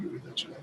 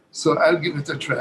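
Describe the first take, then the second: First: Repeats it under his breath, unvoiced; a whispered aside to himself. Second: Said in the usual way. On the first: Real, not acted. Guest psyching himself up before playing, whispered. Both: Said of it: "Bruce would like me to do it".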